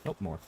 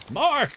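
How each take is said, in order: First: Said in the usual way. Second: High excited yell for more; shouting. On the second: Real, not acted. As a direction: shout it out, demanding.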